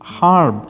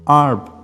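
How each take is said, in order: First: The word begins with an H sound. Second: The word begins without an H sound. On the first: "H sound" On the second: "no H sound"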